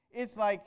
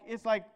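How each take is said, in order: Both takes have the same delivery.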